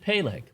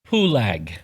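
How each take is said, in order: First: The name is said with the vowels of Peleg. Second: The name is said with the vowels of Pulag. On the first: The speaker calls it wrong. "You would not pronounce it Peleg" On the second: The speaker calls it right. "you would change the vowel sounds"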